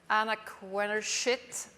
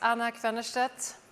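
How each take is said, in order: First: The name ends with a 'shit' sound. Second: The name ends with a 'stedt' sound. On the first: Someone else said it this way. "as uh, Rob Riley said yesterday" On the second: This is the speaker's own name. "my name is"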